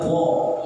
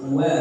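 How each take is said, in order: First: The syllable is thick, with a rounded vowel. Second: The syllable is thin, with a light open vowel. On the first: The speaker calls it wrong. "jangan wo" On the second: The speaker calls it right. "Bahkan waw pun tipis"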